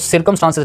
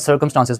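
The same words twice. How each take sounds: First: The first vowel sounds like 'ee'. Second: The first vowel sounds like 'ur'. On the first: The speaker calls it wrong. "मैंने इसको सर्कमस्टांसेस नहीं पढ़ा" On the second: The speaker calls it right. "सर्कमस्टांसेस पढ़ा है"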